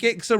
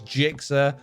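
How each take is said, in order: First: The name begins with a hard G sound. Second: The name begins with a J sound. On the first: The speaker calls it right. "Am I getting Gixa wrong?" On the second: The speaker calls it wrong. "If you're telling me that G is pronounced with a J, then you're wrong"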